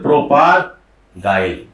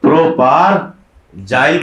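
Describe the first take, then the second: First: प्रोपारगाइल slowly, pausing before गाइल; pronunciation with G. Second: प्रोपारजाइल slowly, broken into long syllables; pronunciation with J. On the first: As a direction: stretch प्रोपारगाइल, ending on "gail". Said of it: "या कुछ बोलते हैं". (प्रोपारगाइल धीरे-धीरे, "ग" के साथ) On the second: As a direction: stretch प्रोपारजाइल, ending on "jail". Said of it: "कुछ बोलते हैं". (प्रोपारजाइल धीरे-धीरे, "ज" के साथ) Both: Shown as a demonstration.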